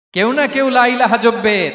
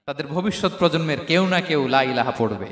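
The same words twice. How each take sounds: First: Raised, loud and drawn out; ringing preacher's declaration in retold speech; emphatic proclamation. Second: Said in the usual way. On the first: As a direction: proclaim it slowly at a higher pitch. Same line repeated as proclamation.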